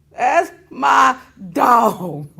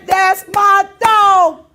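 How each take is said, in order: First: Said in the usual way. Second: Louder, very slow, stretched out; loud proud hype. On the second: Real, not acted. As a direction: drag it out proudly. Hyping up his buddy Brett.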